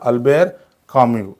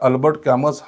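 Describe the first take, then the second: First: The final t and s are silent. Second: The final t and s are sounded. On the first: The speaker calls it right. "Correct उच्चार" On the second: The speaker calls it wrong. "याचा उच्चार हा अल्बर्ट कॅमस हा नसून"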